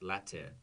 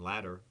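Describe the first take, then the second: First: The middle T is a crisp, clear T. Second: The middle T sounds like a soft D. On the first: "there's my limited British accent for one word" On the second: "same pronunciation, ladder"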